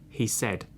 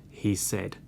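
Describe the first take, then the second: The two takes are said the same way.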